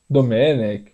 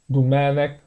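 First: The name is said with a Brazilian pronunciation. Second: The name is said with a Catalan pronunciation. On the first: "A gente vai acabar falando Domenech" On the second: "é um pouco difícil a gente se acostumar a falar Domènec Turèn"

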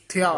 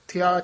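No difference in how they are said.

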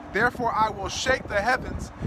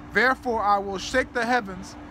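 Both takes have the same delivery.

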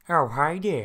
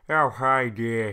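First: It is said in a higher Peter Griffin voice. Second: It is said in a deeper Ted voice.

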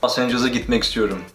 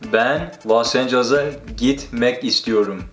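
First: It is said fast. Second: It is said slowly.

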